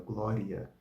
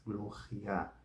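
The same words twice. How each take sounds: First: Said in the usual way. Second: "gloria" with a throaty French R. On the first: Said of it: "um francês que pronuncia a palavra glória". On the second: Shown as a demonstration. Teacher imitates a French speaker saying the word softly. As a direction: roll the R in "gloria" at the back of the throat. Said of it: "pronunciar o R como se fosse francês".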